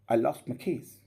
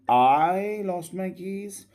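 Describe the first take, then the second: First: The vowel in 'I' is kept short. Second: The vowel in 'I' is drawn out long. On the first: "or the shorter way" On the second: "Just in a longer way like this"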